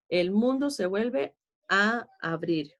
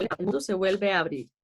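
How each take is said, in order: First: "El mundo se vuelve a abrir" slowly, "a" held apart from "abrir"; slow down, small break between "a" and "abrir"; measured verse reading with "a / abrir" separated; slow rereading. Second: Said in the usual way. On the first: Shown as a demonstration.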